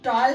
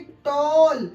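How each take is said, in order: First: The vowel is an open 'aw' sound. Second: The vowel is a closed 'oh' sound. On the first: The speaker calls it right. "ये टॉल है" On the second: The speaker calls it wrong. "हम इसको क्या बोल रहे थे?"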